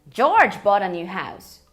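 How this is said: The word George carries the strongest stress. It was this person, not someone else, who bought it. "Quando eu enfatizo o George"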